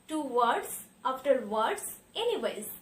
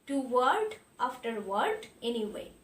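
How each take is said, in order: First: Each word ends with an s sound. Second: Each word ends without an s sound. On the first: The speaker calls it wrong. "लेकिन ये गलत है।" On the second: The speaker calls it right. "बोलने के वक्त आपको इसका इस्तेमाल नहीं करना है"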